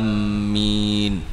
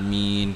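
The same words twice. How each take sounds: First: The m sound is doubled and held. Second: The m sound is single and short. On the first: Heading towards. The speaker calls it wrong. "Kalau kita sabdu makna lain pula" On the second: May God grant it. The speaker calls it right.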